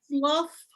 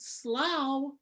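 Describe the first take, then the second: First: Its vowel half-rhymes with the word laugh. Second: Its vowel does not half-rhyme with laugh. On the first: The internal half rhyme of the poem is kept. The speaker calls it right. "and then the half rhyme in the next line with laughter" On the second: The internal half rhyme of the poem is lost. The speaker calls it wrong. "You pronounce it slough, you lose all of that"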